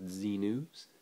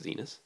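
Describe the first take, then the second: First: It sounds like the letter Z plus 'news'. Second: It rhymes with the word 'Venus'. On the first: The speaker calls it wrong. "I guess it could be pronounced Z-News" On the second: The speaker calls it right. "but I think it's Zenus"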